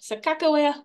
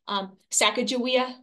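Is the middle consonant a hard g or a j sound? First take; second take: hard g; j sound. First: The middle consonant is a hard g. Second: The middle consonant is a j sound. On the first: This is an English-adapted form of the name. "more of the kind of an Englishized version" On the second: This is the Shoshone form of the name. "the kind of the Shoshone pronunciation"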